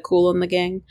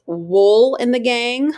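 First: Said in the usual way. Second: Wool in the Gang, with Wool said slowly and clearly; slow and deliberate on Wool in the Gang; name said slowly. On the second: Shown as a demonstration. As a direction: stretch out Wool in the Gang, leaning on gang with a rise. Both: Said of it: "instead of Cool in the Gang".

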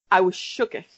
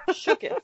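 First: Said in the usual way. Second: Laughing. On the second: Real, not acted. Repeats laughing.

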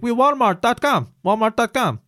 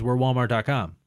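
First: Put-on high, loud caricatured Indian accent; mock Indian accent. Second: Said in the usual way. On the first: Customer retelling the phone agent's words, mock Indian accent. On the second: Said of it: "the guy on the phone goes".

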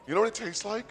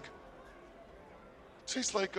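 First: Said in the usual way. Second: Drawn-out whisper; slow breathy whisper. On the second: Acted. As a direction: whisper it slowly for suspense. Dramatic pause before taste.

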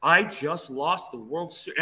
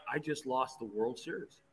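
First: Slow, deliberate repeat at normal volume; emphatic inner thought. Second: Much softer, lower murmur; sinking realization, said to himself; inner thought. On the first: Pitcher realizing the game is gone, slow emphatic disbelief. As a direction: let "I just lost" land word by word. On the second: Pitcher watching the closer warm up, quiet dread. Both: Retold or imitated. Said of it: "And in my head, I'm like".

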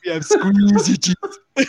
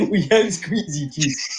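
First: Slow, drawn out "squeezy cheese"; emphatic squeezy cheese. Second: Laughing through it. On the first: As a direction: lean hard into "squeezy". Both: Pretend. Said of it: "say it all with the emphasis".

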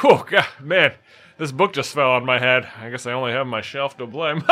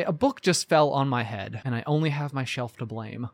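First: Hammed-up dad telling a pun; proud dad setting up his own pun; corny dad. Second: Deadpan setup of a pun; understated corny punchline; corny joke delivery. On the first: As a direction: play the groan-worthy dad cracking a joke. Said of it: "like your dad might". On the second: Acted. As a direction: lay the pun down dry and low. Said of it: "a corny funny".

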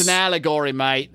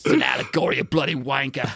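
First: Lightly put-on Australian accent; a jokey Aussie twang on mate; mock Australian. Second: Mock Australian. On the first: Jokey Australian accent mocking Alan Moore's commentary. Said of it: "I don't know why I keep making him Australian". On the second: Jokey Australian accent voicing Alan Moore as a bloke. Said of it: "making him Australian".

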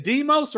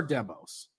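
First: "Demos" said DEE-mohs; long EE in the first syllable of "Demos"; long-e pronunciation. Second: "Demos" said DEM-ohs; short E as in "hem" in "Demos"; short-e pronunciation. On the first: Host checking the guest's surname, "Demos" as DEE-mohs. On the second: Host offering the other surname option, "Demos" as DEM-ohs. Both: Shown as a demonstration. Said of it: "is it Demos or Demos?".

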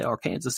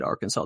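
First: "Arkansas" said as ar-KAN-zəs; said like Kansas. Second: Said in the usual way. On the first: Shown as a demonstration. Joking about state names, "Arkansas" pronounced Ar-Kansas. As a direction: rhyme "Arkansas" with Kansas, AR in front. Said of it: "A R in front of the Kansas". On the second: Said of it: "you put the A R in front of the Kansas".

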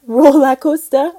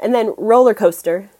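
First: Laughing try at "Roller coaster" in a Geordie accent; slow, unsure Geordie "Roller coaster"; a giggly attempt at a Geordie accent; failed Geordie attempt. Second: Said in the usual way. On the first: Shown as a demonstration. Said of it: "Accent's terrible". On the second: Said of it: "I can't do it".

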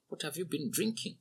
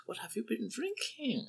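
First: A light, raised, softer question with drinking rising; asked lightly. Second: Very high breathy whisper, drinking falling; sparkling interest. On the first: Old man lightly asking the drunk laborer. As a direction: ask it with easy curiosity. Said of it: "He asked lightly". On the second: Old man whispering his question to the drunk. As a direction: whisper it with twinkling curiosity. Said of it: "his eyes sparkling with interest". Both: A narrator's reading.

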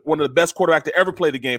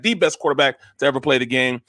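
First: Said in the usual way. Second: "the" said as an emphatic "thee"; stress on THE. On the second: Real, not acted. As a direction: lean on "the" as THEE, meaning the one and only. Upgrades "one of the best.

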